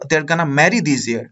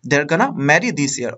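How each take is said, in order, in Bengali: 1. 'Going to' এক শব্দে কমে যায়, 'gonna'। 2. 'Going to' এক শব্দে কমে যায়, 'gonna'।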